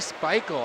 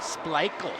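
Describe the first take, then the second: First: The name is said without an L sound. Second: The name is said with an L sound. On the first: The speaker calls it wrong. "You say Speichel" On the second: The speaker calls it right. "there's an L in there"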